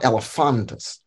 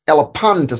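First: The PH is pronounced as an F sound. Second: The PH is pronounced as a P sound. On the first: The speaker calls it wrong. "not Elephantus" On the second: The speaker calls it right. "does not sound like F. It just sounds like P"

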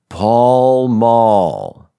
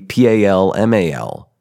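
First: The vowels are back 'ah' sounds. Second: The vowels are front 'a' sounds. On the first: The name has double L's. The speaker calls it right. "It's P-A-L-L-M-A-L-L" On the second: The name would have single L's. The speaker calls it wrong. "So pal-mal would be P-A-L-M-A-L, but it's not spelled that way"

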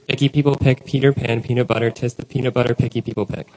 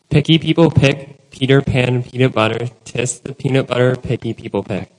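First: It is said faster. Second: It is said at a normal speed.

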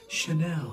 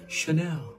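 First: The name begins with a soft 's' sound. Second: The same.

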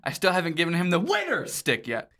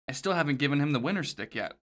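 First: The word winner is yelled very loudly. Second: The word winner is said at normal loudness.

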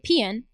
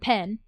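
First: Said in a relaxed regional home accent. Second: Said carefully in a more standard accent. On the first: "I don't say pen for pen" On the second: "I pronounce my words with more deliberation"

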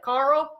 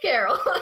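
First: The name is said as one syllable, Carl. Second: The name is said as two syllables, Carol. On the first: The speaker calls it wrong. "pronouncing it like Rick from The Walking Dead, like, Carl? That's not how you say it" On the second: The speaker calls it right. "Fun fact, it's Carol"

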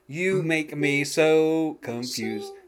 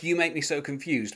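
First: The phrase is broken into separate chunks. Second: The phrase flows smoothly without breaks. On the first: "he says" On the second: "but he doesn't say it like that"

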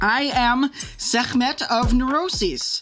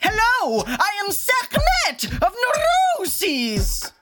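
First: It sounds calm and composed. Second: It sounds crazy and unhinged.

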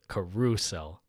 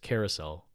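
First: The stress is on the second syllable. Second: The stress is not on the second syllable. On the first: The speaker calls it wrong. "they emphasize the second syllable" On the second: The speaker calls it right. "the word is carousel"

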